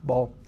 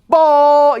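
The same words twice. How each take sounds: First: The word is said quietly and kept low. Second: The word is said loudly and emphatically. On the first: The speaker calls it right. "But I'm still staying down" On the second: The speaker calls it wrong. "What I would stay clear of is the loud one"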